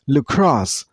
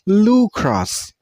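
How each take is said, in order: First: The stress is on the second syllable. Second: The stress is on the first syllable. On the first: The speaker calls it right. "Use a stress on a second syllable. I mean on cross sound" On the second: The speaker calls it wrong.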